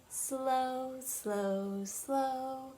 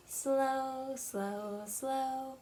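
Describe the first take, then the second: No difference in how they are said.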